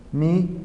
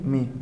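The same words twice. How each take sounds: First: MI lifted in a rising tone; accented form. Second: Mi dropped in a falling tone; unaccented form. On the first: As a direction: say MI as the accented word, pitch going up. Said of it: "Acentúa mi si es pronombre". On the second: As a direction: say mi as the unaccented word, pitch going down. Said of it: "No acentúes mi si es adjetivo". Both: Shown as a demonstration.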